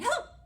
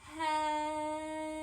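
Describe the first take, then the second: First: It is said very fast. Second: It is said very slowly.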